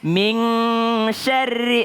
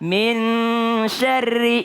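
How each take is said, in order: First: The n is said as an ng sound. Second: The n blends into the following sh sound. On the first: The speaker calls it wrong. "Dia bilangnya kalau ikhfa itu N G, jadi bilangnya min syarri. Oh salah" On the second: The speaker calls it right. "Ikhfa itu adalah ketika nun melebur ke huruf setelahnya"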